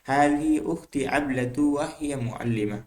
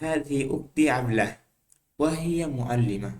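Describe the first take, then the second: First: The name runs into the next word without pause. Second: There is a pause after the name. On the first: "না থেমে, এক পেশ দিয়ে না থেমে পড়া।" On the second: "এভাবে পড়তে পারবেন। এটা আসহ, এটাই বেশি সঠিক।"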